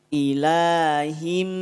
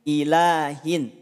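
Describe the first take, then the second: First: The word ends with an m sound. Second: The word ends with an n sound. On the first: "akan berubah bunyinya menjadi mim" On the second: "Di huruf ha terdapat tanwin kasroh, dibacain ilahin"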